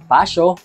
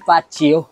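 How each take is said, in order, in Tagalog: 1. Ang gitnang katinig ay tunog na s-y. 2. Ang gitnang katinig ay tunog na z. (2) "at lalong-lalong hindi Fazio"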